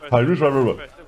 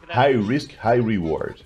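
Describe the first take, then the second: First: The phrase is said quickly, like a tongue twister. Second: The phrase is said at a normal pace.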